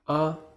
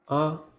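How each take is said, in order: First: The syllable is short, light and unstressed. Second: The syllable is short, light and unstressed.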